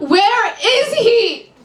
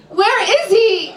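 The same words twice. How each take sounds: First: Higher, slower, pleading repeat; desperate client. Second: High, slow, insistent question; demanding client. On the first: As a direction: beg for the answer now. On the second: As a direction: press her for an answer. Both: Acted.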